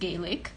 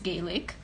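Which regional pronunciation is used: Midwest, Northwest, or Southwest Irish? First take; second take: Northwest; Northwest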